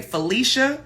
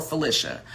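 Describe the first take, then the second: First: "Felicia" as fuh-LEE-shuh, higher and rising; long-E Felicia. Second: "Felicia" as fuh-LISH-uh, falling; short I in the middle of "Felicia", dropping at the end. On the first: Offering the first name option, long-EE "Felicia". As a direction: stretch the EE in "Felicia", lifting at the end. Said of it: "the first one". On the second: Offering the second name option, short-I "Felicia". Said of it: "I know there's a difference". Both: Shown as a demonstration.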